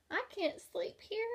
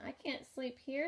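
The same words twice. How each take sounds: First: High little-bug voice; the ladybug complaining on the bear's ear, high pitched; squeaky ladybug. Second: Said in the usual way. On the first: A narrator's reading. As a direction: pipe up like a tiny ladybug. Ladybug character voice.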